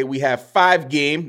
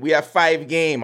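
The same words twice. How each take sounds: First: Light mock Jamaican accent; a playful hint of Jamaican lilt. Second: Said in the usual way. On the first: Podcaster teasing listeners with a light Jamaican accent. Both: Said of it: "That's my Jamaican accent".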